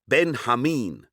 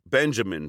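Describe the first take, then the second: First: The middle syllable begins with an H sound. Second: The middle syllable begins with a J sound.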